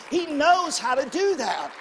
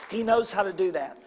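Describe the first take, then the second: First: Slow, loud, higher preacher shout; preaching shout. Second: Said in the usual way. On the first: Real, not acted. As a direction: hammer it home slowly with a shout. Preacher repeats line, shouted first.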